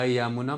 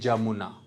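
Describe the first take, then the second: First: The word begins with a Y sound. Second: The word begins with a J sound. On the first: "यमुना बोलेंगे" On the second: "बोलेंगे जमुना"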